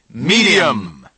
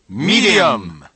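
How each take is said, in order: The two takes are said the same way.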